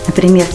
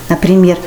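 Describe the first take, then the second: The two takes are said the same way.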